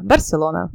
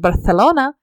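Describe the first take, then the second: First: The 'c' is said with an s sound. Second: The 'c' is said with a th sound. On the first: This is how people here say it. "то здесь скажут тебе" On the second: This is how people in Spain say it. "если испанец скажет"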